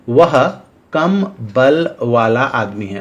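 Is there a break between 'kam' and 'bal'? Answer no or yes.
yes. There is a break after 'kam'. The man has little strength. "उसकी ताकत कम है"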